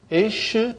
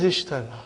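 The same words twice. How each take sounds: First: "Ishtara" broken into widely spaced syllables. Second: Said in the usual way. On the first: Shown as a demonstration. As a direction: sound out "Ishtara" with long pauses between syllables. Sounds out the corrected verb.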